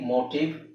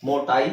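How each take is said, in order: First: The second vowel is a short ih sound. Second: The second vowel is an eye sound. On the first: The speaker calls it right. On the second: The speaker calls it wrong.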